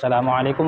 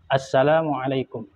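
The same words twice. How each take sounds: First: The opening 'as-' is swallowed and barely heard. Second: The opening 'as-' is stressed with a doubled s. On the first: The greeting may be invalid in prayer. The speaker calls it wrong. "Tidak boleh" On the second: The greeting is complete and valid. The speaker calls it right. "harus betul-betul ditekankan asnya"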